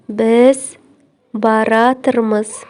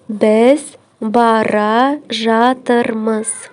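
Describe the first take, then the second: First: The verb is merged into one shortened word. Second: The verb is said as two full words.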